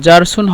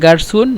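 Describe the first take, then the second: First: The word starts with a soft j sound. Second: The word starts with a hard g sound. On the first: This is the standard form of the word. "মূলত জারসুন হবে" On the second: This is the regional dialect form. "আঞ্চলিক ভাষায় গারসুন বলে"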